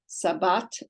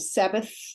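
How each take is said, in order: First: The word ends with a t sound. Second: The word ends with a th sound. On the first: This is the modern pronunciation. "But today it would be pronounced" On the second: This is the older pronunciation. "Originally, this sound was made uh, pronounced like we do in English"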